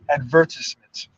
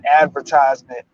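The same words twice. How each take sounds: First: It is said in a British-style Caribbean way. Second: It is said in a plain American way. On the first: "they'll say advertisement" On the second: "instead of saying advertisement"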